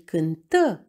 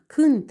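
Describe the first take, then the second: First: The stress is on the second syllable. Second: The stress is on the first syllable. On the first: The action happened in the recent past. "verbul este la timpul perfect simplu" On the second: The action happens now, in the present. "verbul este la timpul prezent"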